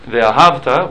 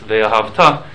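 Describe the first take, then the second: First: The stress falls on an early syllable. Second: The stress falls on the final syllable. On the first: It describes love in the past. "with the accent at the beginning of the syllable, that means, and you loved, past tense" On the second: It commands love in the future. "and you will love, commandments"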